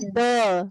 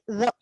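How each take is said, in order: First: The word is said with a drawn-out vowel. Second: The word is said short and quick. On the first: The speaker calls it wrong. "Don't say the" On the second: The speaker calls it right. "it is short"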